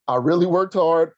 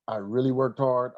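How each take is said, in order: First: "I really worked hard" said louder and higher, leaning on worked; emphatic repeat. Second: Said in the usual way. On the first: Shown as a demonstration. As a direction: hit "worked" hard the second time round.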